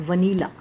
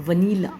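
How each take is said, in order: Both takes have the same delivery.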